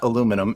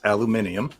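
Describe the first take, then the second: First: The word is said with four syllables. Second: The word is said with five syllables. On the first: The speaker calls it wrong. "Correct way of saying that is not aluminum" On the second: The speaker calls it right. "it's aluminium"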